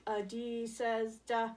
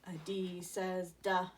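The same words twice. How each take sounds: First: "duh" said slowly and clearly; slow D sound. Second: Duh said short; D sound. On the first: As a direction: stretch out "duh" for kids. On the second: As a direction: model "duh" for D. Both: Shown as a demonstration. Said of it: "days also starts with a duh sound".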